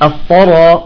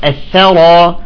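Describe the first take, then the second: First: The 'th' sound is heavy and thickened. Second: The 'th' sound is light and thin. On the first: The speaker calls it wrong. "بعضهم يقول" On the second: The speaker calls it right. "نرقق الثاء"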